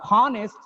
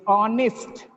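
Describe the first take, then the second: First: The word starts with an audible h. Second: The word starts with no h sound. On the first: The speaker calls it wrong. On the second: The speaker calls it right.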